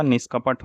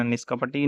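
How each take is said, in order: First: Said in the usual way. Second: निष्कपटी ending in long "ee"; extra final ee. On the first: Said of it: "होता है". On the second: Shown as a demonstration. Teacher showing the wrong form, निष्कपटी with final ee. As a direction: add an ee after the ṭ in निष्कपटी. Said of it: "नहीं होगा".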